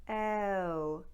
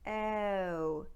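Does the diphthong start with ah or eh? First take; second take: eh; eh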